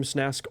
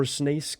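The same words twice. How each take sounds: First: Snask with a short a, as in "ask"; pronunciation option. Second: Snask with a long a, like "snake"; alternative pronunciation. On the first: Caster unsure of a player's name, Snask with a short a. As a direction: say Snask to rhyme with "task". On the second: Caster offering another reading of a player's name, Snask as "snaysk". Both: Shown as a demonstration. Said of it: "that's how you pronounce his name".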